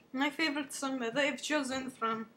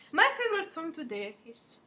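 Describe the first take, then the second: First: Said in the usual way. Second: Louder and higher, presenting the song; big host announcement. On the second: Pretend. Pretend TV host announcing the song of the day, excited.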